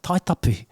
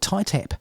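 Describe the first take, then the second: First: It is said with Māori pronunciation, all syllables kept. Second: It is said the anglicized way, clipped short. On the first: The speaker calls it right. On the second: The speaker calls it wrong.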